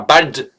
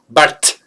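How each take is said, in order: First: The word ends with a voiced D sound. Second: The word ends with a voiceless T sound. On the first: The speaker calls it wrong. "Et pas bald" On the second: The speaker calls it right. "comme un T à la fin"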